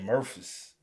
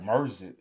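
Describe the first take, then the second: First: The city name is said in a standard way. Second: The city name is said in a clipped local accent. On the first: "They don't say Memphis" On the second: "They be like Mersey"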